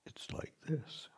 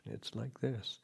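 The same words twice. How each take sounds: First: Hushed and higher, let it land gently; whispered teaching phrase. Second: Said in the usual way. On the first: Shown as a demonstration. Meditation teacher quoting his master's phrase, whispered. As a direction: breathe the phrase out like a mantra. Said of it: "Luang Por Sumedho's recurring teaching phrase". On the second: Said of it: "just pay attention".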